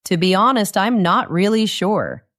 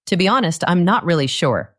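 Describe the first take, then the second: First: Honest, really and sure pushed a little harder; stronger honest, really, sure. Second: Clear, even model reading; model sentence for shadowing. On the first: Teacher repeats the sentence stressing honest, really and sure. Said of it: "The words honest, really, and sure are stronger". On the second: Teacher reads a model sentence for students to copy, clear and even. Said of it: "Try to copy my voice exactly". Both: Shown as a demonstration.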